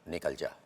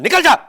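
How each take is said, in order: First: It is said calmly and steadily, unhurried. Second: It is shouted loudly. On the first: "जब ये ठहराव आ गया" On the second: "आपने shout भी किया"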